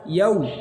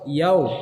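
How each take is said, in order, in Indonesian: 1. Vokalnya terdengar seperti 'u' murni, bibir membulat. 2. Vokalnya terdengar seperti 'o', bibir tidak membulat. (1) "Harusnya bagaimana? ... suara yang dihasilkan adalah suara huruf u" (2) "kalau bibir kita tidak maju akan keluar suara huruf o"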